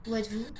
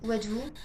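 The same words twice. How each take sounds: The two takes are said the same way.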